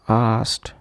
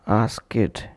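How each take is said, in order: First: The word ends in a t sound. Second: The word ends in an id sound. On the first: The speaker calls it right. "is to be pronounced as t" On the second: The speaker calls it wrong. "or as id"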